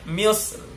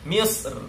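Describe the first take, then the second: Both takes have the same delivery.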